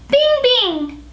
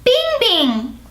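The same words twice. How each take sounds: First: Put-on very high, childlike "Bing, bing"; childlike head voice. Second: Put-on very high, childlike "Bing, bing" once more; childlike head voice. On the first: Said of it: "the top note should be very childlike". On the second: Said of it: "Let's do it again". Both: Shown as a demonstration. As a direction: sing "Bing" way up like a baby.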